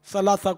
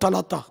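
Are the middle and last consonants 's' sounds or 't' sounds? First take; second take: s sounds; t sounds. First: The consonants are said with an 's' sound. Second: The consonants are said with a 't' sound. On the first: The speaker calls it right. "सा को ठा पढ़ते हैं लोग" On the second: The speaker calls it wrong. "सलासा को तलाता"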